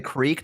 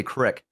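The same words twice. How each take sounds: First: "creek" with a long ee; standard creek. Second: "crick" with a short i; local crick. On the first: Explaining local speech to co-host, "creek" with long ee. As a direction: say "creek" to rhyme with seek. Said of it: "some people down here, they'll say". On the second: Explaining local speech to co-host, "crick" with short i. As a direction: say "crick" to rhyme with brick. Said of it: "they say crick". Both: Shown as a demonstration.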